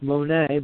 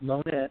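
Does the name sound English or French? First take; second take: French; English. First: The name is said in a French way. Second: The name is said in an English way. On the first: The speaker calls it wrong. "not pronounced Monet ... if you were French, you might pronounce it Monet" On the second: The speaker calls it right. "but pronounced Monett"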